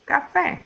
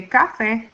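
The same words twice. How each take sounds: First: Café stressed on FÉ, the last syllable; café as ca-FÉ, slow and end-weighted; correct stress. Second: Café stressed wrongly on CA, the first syllable; mis-stressed café, CA-fe. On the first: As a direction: land slowly on the end of café, rising on FÉ. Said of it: "we say café". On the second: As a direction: punch the CA of café and let the end drop. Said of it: "we don't say café". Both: Shown as a demonstration.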